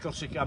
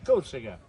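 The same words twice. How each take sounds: First: The word is pronounced with French sounds. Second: The word is pronounced with Corsican sounds. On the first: This is how French speakers say it. The speaker calls it wrong. "vous dites en français Corsica" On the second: This is how it is really said. The speaker calls it right. "mais c'est c'est Corsica"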